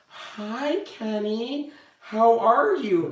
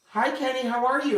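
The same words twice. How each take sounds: First: High, slow sing-song hello like to a fragile patient; careful greeting. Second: High, sing-song careful hello; gentle greeting. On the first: Coworkers greet confused Kenny, high, slow and careful. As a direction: coo it up high and slow, tiptoeing. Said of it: "this is how they would treat me". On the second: Husband gently greets confused Kenny, high and careful. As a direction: greet him like a fragile patient, lilting up high. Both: Retold or imitated.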